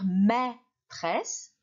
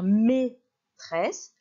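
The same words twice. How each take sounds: First: The first vowel is an open 'è' sound. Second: The first vowel is a closed 'é' sound. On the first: "J'aurais pu lire maîtresse" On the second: "le A et le I se prononcent et"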